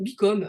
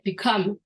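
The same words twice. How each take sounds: First: It is said French-style, without stress on the second syllable. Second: The stress is on the second syllable.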